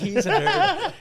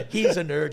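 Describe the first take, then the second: First: Squealed with laughter, much higher and louder; "nerd" cracked up high in laughter; laughing squeal. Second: Said in the usual way. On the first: Real, not acted. Mocking his brother at the height of laughter. Repeats the jibe at laughing peak.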